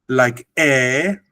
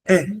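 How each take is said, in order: First: The vowel is held long. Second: The vowel is very brief. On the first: "This is long" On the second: "and this is even shorter"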